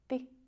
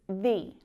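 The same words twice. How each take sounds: First: The word has a shortened, clipped vowel. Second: The word has a long, full vowel. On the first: "a shorter version" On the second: "you won't really hear it pronounced like that very often"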